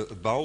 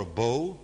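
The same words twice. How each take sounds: First: "bow" said like "bough"; BOW rhyming with cow. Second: "bow" said like "boh"; BOW rhyming with go. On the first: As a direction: say "bow" with an ow glide. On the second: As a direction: say "bow" with a long o. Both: Shown as a demonstration. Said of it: "Is that the word?".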